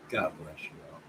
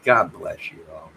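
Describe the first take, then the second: First: A hushed second goodbye; soft repeat. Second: Said in the usual way. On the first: Real, not acted. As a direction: lower and much softer echo of the blessing.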